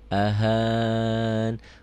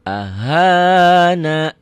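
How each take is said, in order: First: The word ends on a consonant, vowel dropped. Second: The word ends in a pronounced final vowel. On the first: The reading stops here. "Berhentinya di sini" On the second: The reading continues on without stopping. "Kalau naknya dibaca, itu berarti dia nyambung"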